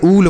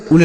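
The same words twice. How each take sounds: First: उल with a long oo; correct long oo. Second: उल with a short, quick u; wrong short u. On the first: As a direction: stretch the vowel of उल, like "ool". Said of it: "double O से बढ़ाऊ की मात्रा". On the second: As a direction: cut the vowel of उल short. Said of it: "उल नहीं पढ़ते हैं". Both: Shown as a demonstration.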